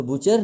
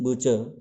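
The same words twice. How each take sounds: First: बुचर with its final र pronounced; sounded final r. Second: बुचर said "BUH-chuh", no र at the end; silent final r. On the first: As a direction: make the r at the end of बुचर heard. (बुचर के अंत में र बोलकर) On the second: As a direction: stop on "chuh", leaving out the r of बुचर. (बुचर का आख़िरी र मौन) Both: Shown as a demonstration. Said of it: "तो बुचर नहीं है".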